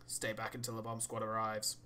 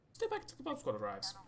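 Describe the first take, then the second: First: Said in the usual way. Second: Much higher, odd put-on accent on 'Stay back until the bomb squad arrives'; unnamed put-on accent. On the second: Shown as a demonstration. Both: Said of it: "Don't know what that accent was".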